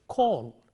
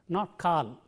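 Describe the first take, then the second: First: The vowel is said with rounded lips. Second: The vowel is said with unrounded, spread lips. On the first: The speaker calls it right. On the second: The speaker calls it wrong.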